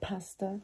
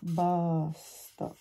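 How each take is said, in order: First: The word begins with a p sound. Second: The word begins with a b sound. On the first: "Instead of saying pasta" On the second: "In Arabic, there's no letter for P. you've got basta"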